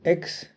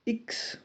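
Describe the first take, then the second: First: Said in the usual way. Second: इक्स, short eeks sound; French X. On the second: Shown as a demonstration. Teacher contrasts English and French X, says इक्स. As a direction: say इक्स, not एक्स. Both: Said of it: "एक्स को इक्स pronounce करते हैं".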